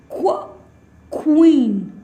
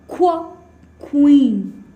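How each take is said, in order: Both takes have the same delivery.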